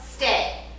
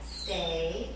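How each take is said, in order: First: It sounds like a firm command. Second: It sounds like a question, asking. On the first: The dog is being told what to do. The speaker calls it right. "Tell her stay" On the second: The dog is being asked, not told. The speaker calls it wrong. "Not stay, asking her"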